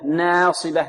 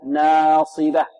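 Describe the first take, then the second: First: The long vowel after n leans toward e. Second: The long vowel after n is a plain open a. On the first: The speaker calls it wrong. "والنون لمجاورتها للصاد يأتي بها ماذا؟ ممالة" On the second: The speaker calls it right. "ينبغي أن تأتي بالألف مرققة مفتوحة فتحا متوسطا"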